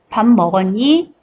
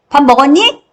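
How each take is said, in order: First: It is said calmly at normal volume. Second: It is said loudly with a raised voice.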